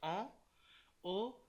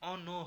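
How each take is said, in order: First: The n sound stays separate from the next word. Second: The n sound runs into the next word. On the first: The speaker calls it right. "এটা হয়ে যাবে" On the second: The speaker calls it wrong. "ও হবে না"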